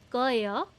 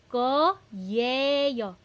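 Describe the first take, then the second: First: The ye syllable is dropped, leaving two syllables. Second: Every syllable, including the ye, is clearly pronounced. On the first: "sometimes you don't hear the ye" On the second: "ang tamang spelling ng koyeyo is ko-ye-yo"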